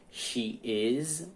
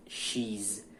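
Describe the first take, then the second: First: "she is" as two separate words; full form. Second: "she's" in one syllable, SHEEZ; contracted form. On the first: Teacher showing the uncontracted verb, "she is" in two syllables. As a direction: give "is" its own syllable after "she". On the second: Teacher showing the contraction, "she's" as one syllable. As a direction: merge "she" and "is" into "she's". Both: Shown as a demonstration. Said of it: "forma contraída ou contracta".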